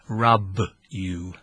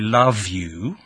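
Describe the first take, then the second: First: The L and V become R and B. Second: It has clear L and V sounds. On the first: "No L, no V. So, rub you" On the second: "if I wanted to say"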